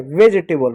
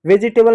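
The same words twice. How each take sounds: First: वेजिटेबल as "vej-tay-bal"; three-syllable वेजिटेबल, j straight into t; correct pronunciation. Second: वेजिटेबल with a middle i, "ve-ji-tay-bal"; four-syllable वेजिटेबल, ji sounded clearly; wrong pronunciation. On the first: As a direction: drop the i after j in वेजिटेबल. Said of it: "वेजिटेबल होता है". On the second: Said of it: "वेजिटेबल नहीं". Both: Shown as a demonstration.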